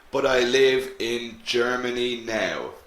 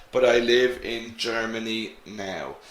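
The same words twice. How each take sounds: The two takes are said the same way.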